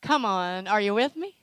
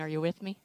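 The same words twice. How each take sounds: First: Loud, insistent call to the crowd; rousing call. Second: Said in the usual way. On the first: Real, not acted. Preacher rousing the congregation for an answer, loud call. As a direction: push it out to get a response. Repeats louder to rouse congregation.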